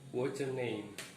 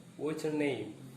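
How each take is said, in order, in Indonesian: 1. Kata-katanya disambung, menyambung what's dan your. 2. Kata-katanya disambung, menyambung what's dan your.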